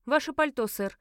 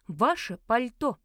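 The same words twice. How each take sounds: First: Raised, louder opening on a brisk request; firm request. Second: Slow, louder, insistent demand; impatient. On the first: Narrator asks the nearest gentleman for his coat, firm request. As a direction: address a stranger with a firm demand. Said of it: "обратилась я к ближайшему господину". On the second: Narrator repeats her demand to the staring fat man, impatient. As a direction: spell out the demand with mounting impatience. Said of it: "нетерпеливо повторила я". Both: A narrator's reading.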